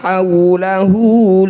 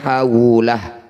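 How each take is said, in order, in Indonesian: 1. Kata ini berakhir dengan vokal u pendek. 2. Kata ini berakhir tiba-tiba pada konsonan h.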